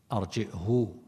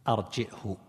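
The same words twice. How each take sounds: First: "أرجئه" ending in a fully lengthened hoo; arji'-hoo for "أرجئه", with glottal stop; hamza with ishba'. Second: "أرجئه" as arji'-hu, short final u; hamza, short damma. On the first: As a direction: stretch the last vowel of "أرجئه" into a waw. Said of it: "بالهمز مع الإشباع". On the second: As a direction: glottal stop in "أرجئه", then a brief hu. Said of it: "إشباع مع الضم". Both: Shown as a demonstration.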